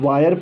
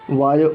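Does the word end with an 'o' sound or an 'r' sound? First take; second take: r sound; o sound. First: The word ends with an 'r' sound. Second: The word ends with an 'o' sound. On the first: The speaker calls it wrong. "ये गलत pronunciation हो रहा है" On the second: The speaker calls it right. "ये rule के हिसाब से है"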